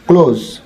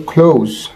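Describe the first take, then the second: First: "ক্লোজ" with plain k and pure o; old "ক্লোজ" pronunciation. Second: "ক্লোজ" with puffed k and ou glide; correct "ক্লোজ". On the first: Teacher quoting the earlier habit, "ক্লোজ" as simple kloz. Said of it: "আমরা এটাকে আগে বলতাম ক্লোজ". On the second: Teacher correcting viewers, "ক্লোজ" as aspirated khlouz. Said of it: "কিন্তু এটা হবে". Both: Shown as a demonstration.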